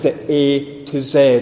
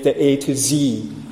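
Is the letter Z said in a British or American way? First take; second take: British; American. First: Z is said the British way, as zed. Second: Z is said the American way, as zee.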